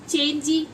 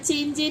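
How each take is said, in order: First: The word ends with an added ee vowel. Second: The word ends with an added ay vowel. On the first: "चेंजी या चेंजे नहीं पढ़ते ना" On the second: "चेंजी या चेंजे नहीं पढ़ते ना"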